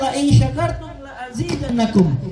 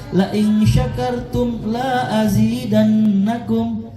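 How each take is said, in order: First: The vowel in the second 'la' is short. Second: The vowel in the second 'la' is long. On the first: If you are grateful, more will surely be given. The speaker calls it right. "Padahal harusnya" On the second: If you are grateful, nothing more will be given. The speaker calls it wrong. "gara-gara la-nya dibaca panjang, artinya berubah"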